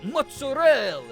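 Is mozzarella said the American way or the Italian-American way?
Italian-American. It is said with an Italian-American pronunciation. The word must be said the authentic Italian way. "the number of pretentious Italian Americans I've had who's like, who are like, "No, you say it mozzarella""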